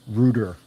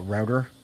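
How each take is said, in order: First: The word is said with a British pronunciation. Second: The word is said with an American pronunciation. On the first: "we in the U K say it" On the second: "I love how Americans say uh"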